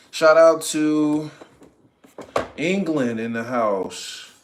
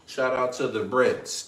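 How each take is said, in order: First: Hype shout-out. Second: Said in the usual way. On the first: Real, not acted. Hyping a viewer from England.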